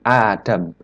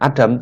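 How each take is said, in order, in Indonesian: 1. Vokal pertamanya dibaca panjang. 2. Vokal pertamanya pendek. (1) "tapi Adam ... dijadikan satu sehingga memanjang" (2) "bukan Adam"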